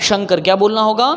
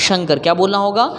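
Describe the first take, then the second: The two takes are said the same way.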